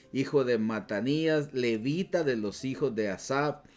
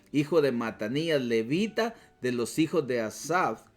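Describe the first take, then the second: No difference in how they are said.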